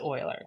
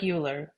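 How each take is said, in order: First: It is said differently from how it's spelled. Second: It is said the way the spelling suggests. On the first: The speaker calls it right. "but you pronounce it Euler" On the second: The speaker calls it wrong. "It looks like Euler"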